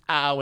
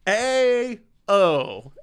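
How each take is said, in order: First: The name is said as one syllable. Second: The name is said as two letters. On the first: "it's pronounced ow" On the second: "Letter A and letter O"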